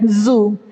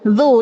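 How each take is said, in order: First: The consonant is a buzzing z sound. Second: The consonant is a soft th-like sound. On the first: The speaker calls it wrong. "seringnya jadi zai" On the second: The speaker calls it right. "Padahal harusnya zal"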